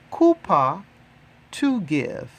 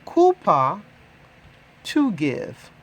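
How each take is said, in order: Both takes have the same delivery.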